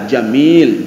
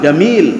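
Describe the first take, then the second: First: The word begins with a J sound. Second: The word begins with a hard G sound. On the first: This is how the Prophet said it. "jim tetap jim" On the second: This is how Egyptians say it. "kalau Mesir kan gim, ga"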